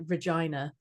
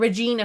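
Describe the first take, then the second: First: Regina with a long "i", rhyming with vagina; "eye" in Regina. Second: Regina with a long "ee", as in Gina. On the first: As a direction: say Regina as "ruh-JYE-nuh". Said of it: "I said it like Regina". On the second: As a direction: say Regina as "reh-JEE-nuh". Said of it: "because I said it like Regina". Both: Shown as a demonstration.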